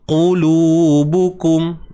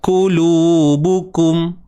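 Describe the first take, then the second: First: The first consonant is a deep, back q. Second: The first consonant is a light, forward k. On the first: The speaker calls it right. "pangkal lidah tu naik" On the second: The speaker calls it wrong. "dia naik tapi jadi seakan huruf kaf"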